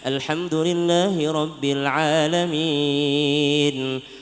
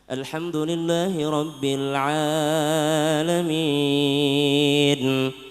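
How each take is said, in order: First: The vowel in alamin has normal length. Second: The vowel in alamin is stretched overly long. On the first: The speaker calls it right. "harusnya kan" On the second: The speaker calls it wrong. "Kelebihan matnya alamin"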